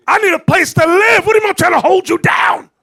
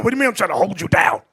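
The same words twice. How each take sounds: First: Much higher, louder outraged yell; shouted protest of a man fresh from jail; indignant shout. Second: Said in the usual way. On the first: Retold or imitated. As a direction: shout it at the feminist in disbelief.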